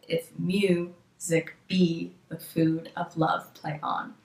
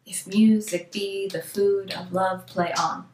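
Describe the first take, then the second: First: Very slow, syllable-by-syllable scansion, splitting "music" to show the beat; exaggerated iambic stress. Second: Slow recitation stressing every second syllable of "If music be the food of love, play on"; iambic stress. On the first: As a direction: draw out "mu", "be", "food", "love", "on", dropping away at the end. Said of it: "it's every second syllable". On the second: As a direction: lean on "mu", "be", "food", "love" and "on" in a steady rhythm. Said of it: "the spoken stress would be on the second syllable". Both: Shown as a demonstration.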